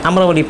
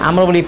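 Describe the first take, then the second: The two takes are said the same way.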